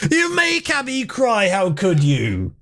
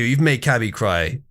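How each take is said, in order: First: High, slow, wounded whine; mock-distraught scolding, drawn out; whiny accusing voice. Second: Said in the usual way. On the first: Scolding chat for upsetting Cabby.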